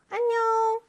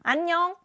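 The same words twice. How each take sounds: First: It is said in a bright, lively voice. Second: It is said in an angry voice.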